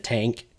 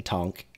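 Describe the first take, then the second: First: Said in the usual way. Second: Tonk, not tank, jokingly; French-accent tonk. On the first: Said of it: "instead of tank". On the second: Shown as a demonstration. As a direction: say tonk with an open o like tonk. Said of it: "with his accent and saying tonk".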